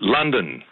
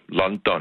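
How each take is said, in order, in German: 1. Es hat englisch klingende, reduzierte Vokale. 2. Es hat zwei volle, betonte A-Vokale. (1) "på den måde, som de pågældende mennesker selv siger ordet" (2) "Med to meget markerede A-lyde"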